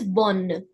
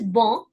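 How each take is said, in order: First: Bonne slowly with an open o and a clear n. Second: Bon with a nasal o, no n sounded. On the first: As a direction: say bonne sounding the n. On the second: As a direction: say bon through the nose. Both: Shown as a demonstration. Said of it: "the difference in the sound".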